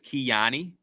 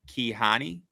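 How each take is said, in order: First: The J is not sounded as an h. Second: The J is sounded as an h. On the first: "I'm going to guess it as Kiani" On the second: "I want to say ha because of the jalapeno for J"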